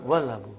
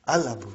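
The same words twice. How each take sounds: First: "Wal Abu" run together as one word, lower; joined pronunciation. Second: "Al Abu" beginning on a clear A, lower; pronunciation without waw. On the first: Teacher shows waw in front, "Wal Abu" joined up. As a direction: link "Wal" straight into "Abu" as wal-abu. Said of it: "It will become". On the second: Teacher reads it with nothing in front, "Al Abu" starting on A. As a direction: say "Al Abu" as al-abu, the L sounded. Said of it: "I will pronounce it as". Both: Shown as a demonstration.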